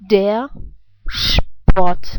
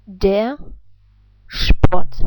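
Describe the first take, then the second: First: "Der Sport" in German, "Sport" starting with a sh sound, like "shport"; "Sport" as "shport", with the German R reduced; German pronunciation. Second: "der Sport" in German, "Sport" starting with a sh sound, like "shport"; "Sport" said again as "shport", with a reduced R; German pronunciation repeated. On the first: Teacher demonstrating German words to English learners, careful German pronunciation. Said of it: "So how would you pronounce those two words?". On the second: Teacher repeating the German solution for learners, careful German pronunciation. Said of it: "I repeat".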